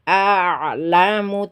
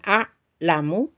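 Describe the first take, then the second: First: The ain sound flows on partly. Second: The ain sound is cut off abruptly. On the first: The speaker calls it right. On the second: The speaker calls it wrong.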